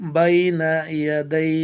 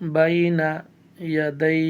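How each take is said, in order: Both takes have the same delivery.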